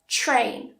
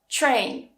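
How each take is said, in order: First: The t and r blend into a ch-like sound. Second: The t and r blend into a ch-like sound.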